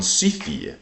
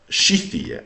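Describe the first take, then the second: First: "Scythia" with a plain S; first pronunciation. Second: "Scythia" with an SH at the start; corrected pronunciation. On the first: Reading the old text before self-correcting, "Scythia" with plain S. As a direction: say "Scythia" as SEE-thee-a. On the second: Correcting the old text reading, "Scythia" starting with SH. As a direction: say "Scythia" as SHEE-thee-a. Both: Shown as a demonstration. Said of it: "I guess I should say".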